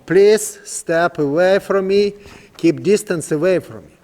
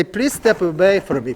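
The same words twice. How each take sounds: First: Slower, drawn-out request with stress on please; slow, calm command. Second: Said in the usual way. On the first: Shown as a demonstration. Trainer asking the young horse to keep his distance, slow and calm. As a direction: spell it out slowly so the horse understands. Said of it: "That's simple right now". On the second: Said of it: "I say".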